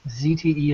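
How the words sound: The first letter is said as "zee".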